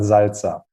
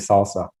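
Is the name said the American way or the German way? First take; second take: German; American. First: The name is said the German way. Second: The name is said the American way. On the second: "I used to live in the U S and everybody called me Salsa"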